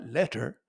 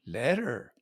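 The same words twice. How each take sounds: First: "letter" with a true T in the middle; crisp T. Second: "letter" with the T turned into a D; flapped T. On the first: Comedian showing the unused way, crisp T. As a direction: pronounce the T in "letter" sharply, no D. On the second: Comedian correcting himself to the American way, flapped T. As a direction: say "letter" with a soft D in the middle. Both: Shown as a demonstration. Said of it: "not letter".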